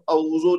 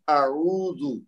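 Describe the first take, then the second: First: The two opening throat sounds run together into one. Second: The two opening throat sounds are kept apart. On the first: The speaker calls it wrong. "अगर बिल्कुल साथ साथ आ जाए तो अऊजो निकल जाता है" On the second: The speaker calls it right. "हमजा को अलग रखना है और आइन को अलग रखना है"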